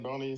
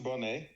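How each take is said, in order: First: The name ends with an 'ee' vowel sound. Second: The name ends with an 'ay' vowel sound. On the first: This is how most other people say it. "commonly said, said Boney" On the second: This is how the owner of the name says it. "I pronounce it Bonet"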